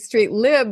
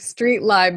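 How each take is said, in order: First: Lib has a short vowel, like in liberating. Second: Lib has a long vowel, like in library. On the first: The name comes from liberating. "because it was liberating" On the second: The name comes from library. "because it was library"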